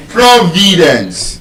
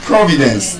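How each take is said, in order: First: "Providence" slow, VI held long; penultimate stress. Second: "Providence" with PRO stressed, rest short; stress on first syllable. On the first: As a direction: stretch VI in "Providence". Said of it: "That's an exception". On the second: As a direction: hit PRO in "Providence", quick light ending. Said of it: "it's just on the first syllable". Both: Shown as a demonstration.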